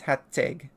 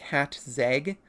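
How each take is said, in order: First: It is said with no z sound after hat. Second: It is said with a z sound after hat. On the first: The speaker calls it right. "it is like hat and then egg" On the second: The speaker calls it wrong. "which influences people to pronounce it incorrectly"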